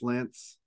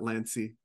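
First: The name ends without a final vowel sound. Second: The name ends with an extra final vowel sound. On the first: The speaker calls it right. "It's actually just Lance. Okay, the E is, I guess, silent" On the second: The speaker calls it wrong. "people do say Lancey"

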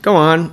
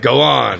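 First: It is said flat, with no pitch movement. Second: It is said with a varied, expressive pitch. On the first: The speaker calls it right. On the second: The speaker calls it wrong.

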